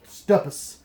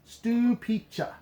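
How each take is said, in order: First: The name ends with a short 'pus' sound. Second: The name ends with a 'pee-cha' sound. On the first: The speaker calls it wrong. "You want to think that is pronounced Stupus" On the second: The speaker calls it right. "but it's Stupiccia"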